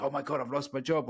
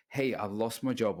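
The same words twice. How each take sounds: First: A hint of a worried whine; mock panic. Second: Steady, unbothered take on bad news; calm and strong. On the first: The anxious nice guy over a lost job, mild mock panic. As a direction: act out the nice guy's worry, lightly. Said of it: "They worry, worry, worry, panic". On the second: The strong man telling of a lost job, calm and steady. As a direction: say it like a man who can handle it. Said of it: "the strong one".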